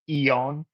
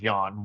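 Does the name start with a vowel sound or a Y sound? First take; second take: vowel sound; Y sound. First: The name begins with a vowel sound. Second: The name begins with a Y sound. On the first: "It was actually pronounced Eon" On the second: "his name was Yon"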